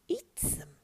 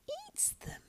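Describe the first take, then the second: First: Creature voice at ordinary pitch; urging creature. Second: Soft, breath-only creature hiss; hissed whisper. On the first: Gollum urges eating the rabbits raw, voiced. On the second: Gollum craves the raw rabbit, hissing softly. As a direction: whisper it greedily. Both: A narrator's reading.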